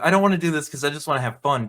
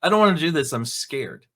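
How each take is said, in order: First: Quick, carefree brat whine; mock fun-loving kid. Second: Whiny coward, voice dropping to a small scared mumble; mock scared kid. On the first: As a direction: rattle it off like a kid who only wants fun. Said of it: "they skip out the fun-loving". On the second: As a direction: play the coward, shrinking on scared. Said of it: "feels like he's a coward".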